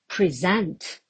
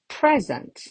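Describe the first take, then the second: First: The stress is on the second syllable. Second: The stress is on the first syllable. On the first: It is a verb meaning to show or give. "if it falls on the second syllable, I can have a verb" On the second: It is a noun meaning a gift. "If I put the stress mark at the beginning"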